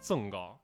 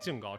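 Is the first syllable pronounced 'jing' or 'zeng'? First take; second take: zeng; jing. First: It is said in standard Mandarin, as zeng. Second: It is said in Xi'an dialect, as jing.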